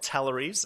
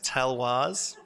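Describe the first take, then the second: First: The name ends with a 'leries' sound. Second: The name ends with a 'wars' sound. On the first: The speaker calls it wrong. "it's not Talleries as I thought it was" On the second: The speaker calls it right. "It is it's Talwars"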